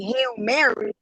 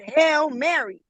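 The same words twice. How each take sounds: First: It is said in a plain English accent. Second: It is said in a Spanish-influenced accent. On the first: The speaker calls it right. "instead of saying" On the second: The speaker calls it wrong. "he said"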